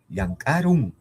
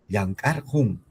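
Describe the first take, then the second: First: The ending is pronounced with an r sound. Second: The ending is pronounced with an h sound. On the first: This is the form used in everyday speech. "Claro que puedes leerlo con Ru" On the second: This is the form kept in writing. "si escribo con el Hu"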